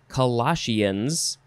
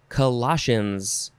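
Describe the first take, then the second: First: The word ends with 'shee-uns', two syllables. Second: The word ends in a single 'shuns' syllable.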